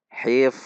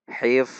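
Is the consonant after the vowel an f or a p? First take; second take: f; f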